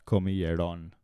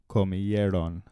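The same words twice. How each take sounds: First: Comieron stressed on the last syllable, ron; wrong stress. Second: Comieron stressed on the second to last syllable, e; correct stress. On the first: Teacher shows the mistaken stress on the last syllable of comieron. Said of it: "not comieron". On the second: Teacher models Comieron stressed on the second to last syllable. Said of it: "the accent is on the second to last syllable". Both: Shown as a demonstration.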